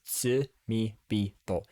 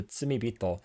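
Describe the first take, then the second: First: "Tsumibito" said very slowly syllable by syllable; slow pronunciation. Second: Said in the usual way. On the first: Shown as a demonstration. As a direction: spell out "Tsumibito" slowly, tsu-mi-bi-to. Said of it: "is "Tsumibito". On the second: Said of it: "But the "Tsumibito" is".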